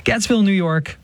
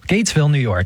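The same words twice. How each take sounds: First: "Gatesville" with a short E, like GETS-vill; higher-pitched correction, "Gatesville" rhyming first syllable with "bets"; corrected pronunciation. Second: "Gatesville" with a long A, as in gates; mispronounced place name. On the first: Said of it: "Pardon me". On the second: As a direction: say "Gatesville" with first syllable rhyming with "dates". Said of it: "so we mispronounce everything". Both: Real, not acted.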